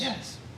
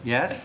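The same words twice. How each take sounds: First: It is said at normal, softer volume. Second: It is said loudly.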